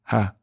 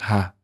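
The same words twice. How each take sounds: No difference in how they are said.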